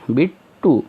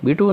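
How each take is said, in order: First: The t sound is said twice. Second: The t sound is said once. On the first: The speaker calls it right. "इसमें जो second टी है वो silent नहीं है" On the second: The speaker calls it wrong. "ये बिट्टू नहीं पढ़ना है"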